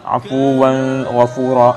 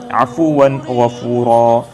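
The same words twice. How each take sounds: First: The n is held with a long nasal hum. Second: The n is said clearly without a nasal hum. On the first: The speaker calls it wrong. "bukannya dengung ... itu cara bacaan yang salah" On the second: The speaker calls it right. "Cara bacaan yang betul"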